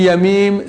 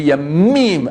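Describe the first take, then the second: First: The M sound is said plainly, without emphasis. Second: The M sound is said with extra emphasis. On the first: It means days. "c'est les jours" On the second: It means seas. "avec un accent dans le M, c'est les mers"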